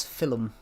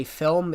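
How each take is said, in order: First: "film" said the Geordie way, "fillum"; two-syllable Geordie "film", with an extra vowel before the m; imitated Geordie "fillum"; Geordie lecturer. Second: Said in the usual way. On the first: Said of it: "Whenever he used to say film". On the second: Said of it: "it was film".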